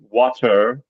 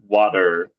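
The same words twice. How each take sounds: First: The middle consonant is a hard T. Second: The middle consonant is a soft D-like sound. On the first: "British English, water with a T" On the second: "American English, water with a D"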